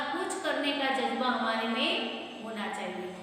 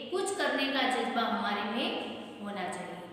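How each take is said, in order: Both takes have the same delivery.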